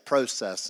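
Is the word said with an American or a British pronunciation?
British. It is said with a British English pronunciation. "I'll try to say process instead of process"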